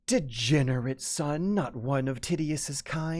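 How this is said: It is read in a female voice. The speaker calls it right. "Female voice"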